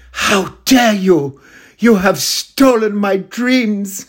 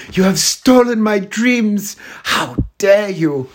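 First: High, slow, outraged speech; hammed-up tearful climate rage, slow and high; Greta Thunberg impression. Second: High, slow, indignant speech; hammed-up outrage, slow and high; Greta Thunberg impression. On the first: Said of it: "like Greta Thunberg in that video where she does the speech". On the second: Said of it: "I'll do my Greta Thunberg impression".

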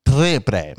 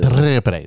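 First: "Triple" with a hard spat rolled r. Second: "Triple" with a clean rolled r; "Triple" with a light tapped r. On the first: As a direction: roll the r in "Triple" too hard. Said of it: "No, see, I spit. That's an R". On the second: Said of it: "There we go". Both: Shown as a demonstration.

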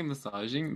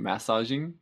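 First: Massaging with a weak first syllable, "muh-SAH-zhing"; questioned pronunciation. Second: Massaging with a full first vowel, "MASS-ah-zhing"; alternative pronunciation. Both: Shown as a demonstration. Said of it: "Is that how you say massaging?".

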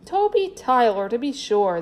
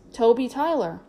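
First: Name called out with mild excitement; cried exclamation. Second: Said in the usual way. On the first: A narrator's reading. Clown pretends to know the boy's famous name, exclaiming. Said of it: "the man cried".

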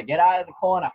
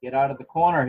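First: Put-on light Boston accent, corner shout. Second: Said in the usual way. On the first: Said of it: "the Boston accent there". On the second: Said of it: "I can hear the New England accent".

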